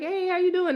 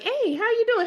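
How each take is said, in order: First: It is said in a casual, low-key way. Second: It is said in an enthusiastic, all-out way.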